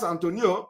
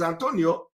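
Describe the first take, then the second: First: "Antonio" said quickly as "An-TON-yo", the final i and o run together; mock the disliked "Antonio", gliding "yo" at the end; wrong pronunciation. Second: "Antonio" given full vowels, "An-to-ni-o", falling at the end; correct pronunciation. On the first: Mocking a man who corrects his mother: "Antonio" squeezed to "Antonyo". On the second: Retold or imitated. Imitating a man lecturing his family on his name: careful "An-to-ni-o". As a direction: state the "proper" "Antonio" carefully, each syllable clear. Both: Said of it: "it is not pronounced Antonio".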